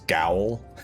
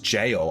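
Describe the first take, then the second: First: It begins with a hard G, rhyming with owl. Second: It begins with a J sound, rhyming with mail. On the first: The speaker calls it wrong. "I always pronounce this gowl" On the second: The speaker calls it right. "oh my god, it's just jail"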